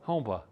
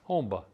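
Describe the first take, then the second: First: It is said fast, with an m sound. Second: The same.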